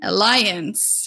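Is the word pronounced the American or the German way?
American. The word is said with an American pronunciation. "how you say it in American"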